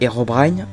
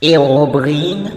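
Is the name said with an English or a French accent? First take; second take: English; French. First: The name is said with an English accent. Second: The name is said with a French accent.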